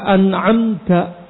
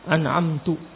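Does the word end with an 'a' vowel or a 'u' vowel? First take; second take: a; u. First: The final syllable ends in an 'a' vowel. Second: The final syllable ends in a 'u' vowel. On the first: The speaker calls it right. "yang seharusnya dibaca an'amta" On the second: The speaker calls it wrong. "dia membaca an'amtu. Ini kesalahan yang fatal"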